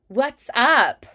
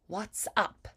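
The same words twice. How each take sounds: First: Standard American, with a brighter and clearer tone. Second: Warm and rounded, with crisp final consonants. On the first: It sounds standard and neutral. "standard American, a little bit brighter" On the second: It sounds classy and old-fashioned. "transatlantic sound, more warmth, more rounded"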